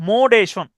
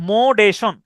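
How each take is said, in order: The two takes are said the same way.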